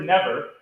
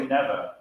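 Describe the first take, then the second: First: NEVER as ne-VER; weight on second syllable. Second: NEVER as NE-ver; weight on first syllable. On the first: Director quizzing choir on stress, ne-VER. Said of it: "I put more weight on the second syllable". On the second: Director showing choir the right stress, NE-ver. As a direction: hit the first syllable of NEVER, let the second drop. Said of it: "I put more weight on the first syllable". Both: Shown as a demonstration.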